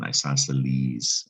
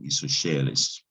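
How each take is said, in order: First: The middle consonant is a plain s sound. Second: The middle consonant is an sh sound. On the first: This is the English pronunciation. "the C in isosceles is silent" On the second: This is the Latin pronunciation. "the S C is making a, an S H sound in Latin"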